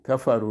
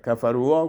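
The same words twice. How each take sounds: First: Said in the usual way. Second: "کفرو وا" with an extra "wa" syllable on the end; mispronounced silent alef. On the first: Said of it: "اینجا هم الف تلفظ نمیشه". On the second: Shown as a demonstration. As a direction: say "کفرو وا" as kafaru-wa.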